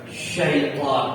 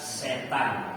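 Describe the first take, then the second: First: The word is said with heavy, thick consonants. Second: The word is said with light, thin consonants. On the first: This is the stronger Arabic form. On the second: This is the weaker Indonesian form. "dalam bahasa Indonesia setan. Jadi setan di Indonesia lebih tipis"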